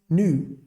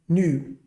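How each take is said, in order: Both takes have the same delivery.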